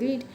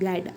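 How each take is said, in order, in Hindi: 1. स्वर लंबा है, 'reed' जैसा। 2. स्वर छोटा है, 'red' जैसा। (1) "तो बच्चे इसे पढ़ते हैं इसको रीड" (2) "इसको हम रैड पढ़ते हैं"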